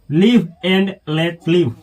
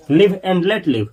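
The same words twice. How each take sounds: First: Each word of live and let live spaced out, very slow; slow model reading. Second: Said in the usual way. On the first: Shown as a demonstration. Teacher drilling the phrase for students, very slow. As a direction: read it slowly so students can copy. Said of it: "teacher models the English phrase". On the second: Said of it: "teacher repeats at normal speed".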